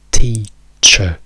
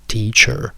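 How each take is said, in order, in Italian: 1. La fine è una schwa semplice, senza R. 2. La fine è una schwa seguita da una R. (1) "viene pronunciata con una schwa" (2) "In americano la schwa rimane, ci aggiungiamo semplicemente una R"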